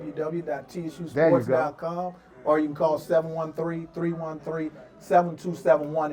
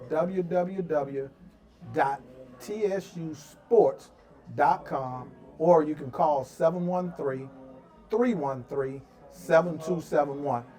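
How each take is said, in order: First: It is said fast. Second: It is said slowly.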